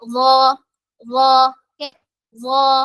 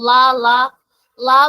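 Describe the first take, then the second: First: The syllable starts with a voiced th-like sound. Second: The syllable starts with a plain l sound. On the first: The speaker calls it right. "നാവിന്റെ അറ്റം പുറത്തേക്ക് കൊണ്ടുവരണം" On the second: The speaker calls it wrong. "ലാ അല്ല"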